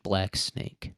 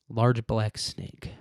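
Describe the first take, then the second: First: Said in the usual way. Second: "Large black snake" drawn out slowly, lingering on "Large"; lingering suggestive repeat of "Large black snake"; slow, savoring repeat. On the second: Shown as a demonstration.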